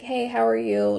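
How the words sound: It is said in a glum, low-energy way.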